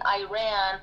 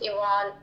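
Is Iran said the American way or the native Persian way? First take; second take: American; Persian. First: It is said with an Americanized pronunciation. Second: It is said with the native Persian pronunciation. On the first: The speaker calls it wrong. "the first person who started saying Iran" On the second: The speaker calls it right. "no, it's Iran"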